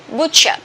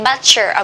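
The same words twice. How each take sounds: First: The first vowel is said short. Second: The first vowel is said long. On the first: The speaker calls it right. "Short O" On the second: The speaker calls it wrong. "Don't say butcher"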